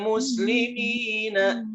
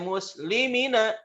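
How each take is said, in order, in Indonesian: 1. Vokal pada 'mi' panjang. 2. Vokal pada 'mi' pendek. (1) "Tapi innal muslimina" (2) "please bacanya jangan pendek. Nggak boleh muslimina"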